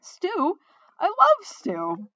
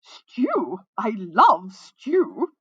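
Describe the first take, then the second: First: High, excited cry with a slow, loud finish; delighted, high-pitched exclamation; wrong character voice. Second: Loud, very drawn-out flamboyant call; melodious ringing voice. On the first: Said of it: "wrong voice, sorry". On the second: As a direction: let it ring out melodiously, stretching each word. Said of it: "a voice rang out melodiously". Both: A narrator's reading.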